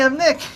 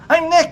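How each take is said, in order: First: It is said quietly. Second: It is said loudly.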